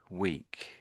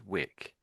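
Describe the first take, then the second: First: The word sounds like 'week'. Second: The word sounds like 'wick'. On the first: The speaker calls it right. "So so I would say this as Rome is growing weak" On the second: The speaker calls it wrong. "it sounded a little bit like uh, wick when you said this word"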